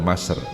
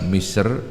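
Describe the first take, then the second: First: The first vowel is an 'a' sound. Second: The first vowel is an 'i' sound. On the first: "boleh baca Masr" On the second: "Boleh dibaca Misr"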